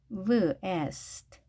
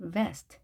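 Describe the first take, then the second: First: "vest" split into v, e, st; sounded out. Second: Said in the usual way. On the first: Shown as a demonstration. Teacher breaks vest into sounds for learners, sounded out piece by piece.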